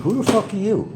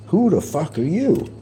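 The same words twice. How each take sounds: First: Higher mock snarl; retold demand. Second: Mock snarl, higher; retold demand. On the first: At the fan at his door, retold high challenge. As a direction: throw it at the stranger, higher. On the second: At the fan at the door, retold challenge. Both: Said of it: "Those are my words".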